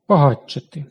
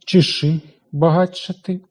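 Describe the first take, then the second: First: Багатшати said quickly, тш merged into a long ч; fast tempo. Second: Багатшати at an ordinary speaking pace, with ч and ш heard apart; normal tempo. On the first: Teacher showing the class the fast-tempo pronunciation. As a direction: rush багатшати so тш fuses into a long ч. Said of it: "У швидкому темпі". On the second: Teacher showing the class the normal-tempo pronunciation. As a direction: say багатшати at everyday speed. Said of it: "у звичайному темпі". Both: Shown as a demonstration.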